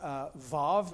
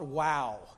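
First: The word begins with a v sound. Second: The word begins with a w sound. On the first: "I was taught vav" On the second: "but then I was taught wow. So we're going to go with wow"

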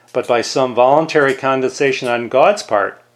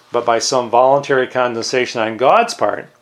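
The two takes are said the same way.

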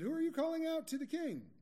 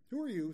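First: It runs on without a pause after "you". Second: It breaks with a pause after "you".

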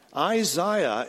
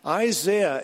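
First: The name is said in the English pronunciation. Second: The name is said in the Irish-American pronunciation. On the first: "Isaiah is the English pronunciation" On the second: "Isaiah is the Irish, Scottish, and American pronunciation"

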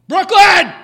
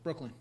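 First: The name is called out louder. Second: The name is called at normal volume.

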